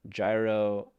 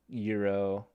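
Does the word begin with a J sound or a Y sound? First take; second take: J sound; Y sound. First: The word begins with a J sound. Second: The word begins with a Y sound.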